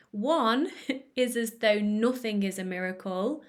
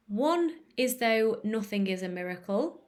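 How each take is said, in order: First: Said in the usual way. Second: Stilted quote reading with a strange "One"; oddly said "One". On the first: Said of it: "more normal". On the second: Real, not acted. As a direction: say "One" a bit weirdly, set apart. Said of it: "I said the word one really weird".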